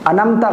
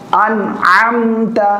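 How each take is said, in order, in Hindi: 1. अक्षर बिना किसी गले की रुकावट के एक साथ बोले जाते हैं। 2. 'an' और 'amta' के बीच गले की रुकावट है।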